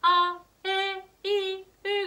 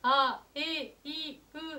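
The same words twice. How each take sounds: First: It is said at a slightly higher pitch. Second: It is said at everyday speaking pitch.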